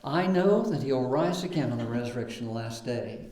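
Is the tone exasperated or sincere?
sincere. It sounds calm and sincerely hopeful. The speaker affirms faith in the future resurrection. "I think we usually read that"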